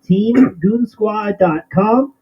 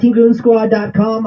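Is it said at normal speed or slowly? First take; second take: slowly; normal speed. First: It is said slowly. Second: It is said at normal speed.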